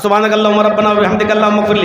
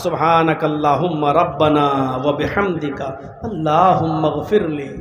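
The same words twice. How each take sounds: First: It is recited carelessly and without feeling. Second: It is recited carefully and with feeling.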